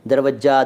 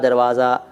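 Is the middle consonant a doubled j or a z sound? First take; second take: doubled j; z sound. First: The middle consonant is a doubled j sound. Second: The middle consonant is a long vowel plus z. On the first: This is how some people say it colloquially. "जिसको कई बार दरवज्जा कहते हैं कुछ लोग" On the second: This is the original Persian form. "दरवाज़ा फारसी का है"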